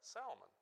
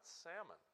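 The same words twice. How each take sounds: First: It is pronounced unlike the fish sold in stores. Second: It is pronounced like the fish sold in stores. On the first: The speaker calls it right. "It is, in fact, Salmon. Don't confuse the two" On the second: The speaker calls it wrong. "not Salmon, as you would buy at the store"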